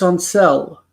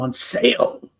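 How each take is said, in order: First: The vowel in 'sale' is a short 'eh' sound. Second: The vowel in 'sale' is a clear 'ay' sound. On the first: The speaker calls it wrong. "My sister also does it" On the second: The speaker calls it right. "no, you found them on sale"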